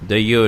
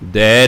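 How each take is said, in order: First: The word ends with an added final 'o' vowel. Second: The word is one syllable ending in 'ai'. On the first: "ਦਈਓ ਨਹੀਂ ਹੈ" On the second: "ਦੈ ਨਹੀਂ ਹੈ"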